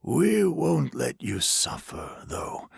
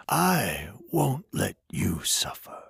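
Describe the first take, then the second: First: Gentle stranger voice. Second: Whispered promise. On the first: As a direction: promise it calmly. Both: A narrator's reading. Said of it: "the stranger said".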